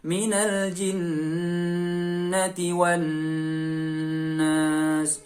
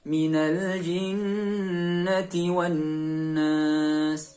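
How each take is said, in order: First: The nasal sound is held for far too long. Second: The nasal sound is held for a moderate length. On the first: The speaker calls it wrong. "Atau terlalu lama. Itu juga terlalu berlebihan" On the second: The speaker calls it right. "Jadi dua atau tiga harokat"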